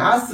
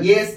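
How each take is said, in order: First: The vowel is an open 'ah' sound. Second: The vowel is an 'ay' sound. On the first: The speaker calls it wrong. "ஆஸ் கிடையாது" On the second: The speaker calls it right. "அந்த ஏஸ் அப்படின்னு வச்சுக்கலாம்"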